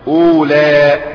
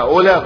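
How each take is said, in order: First: The final vowel is long, ending in a glottal stop. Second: The final vowel is short, with no glottal stop. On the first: "تصبح أولى" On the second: "تبقى أولى"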